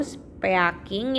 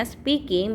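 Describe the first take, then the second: First: "speaking" as spe-a-king, both vowels sounded; spelling pronunciation. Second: "speaking" as spee-king; one ee vowel in "speaking"; correct reading. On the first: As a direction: read "speaking" as written. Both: Shown as a demonstration. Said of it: "itu bacanya speaking".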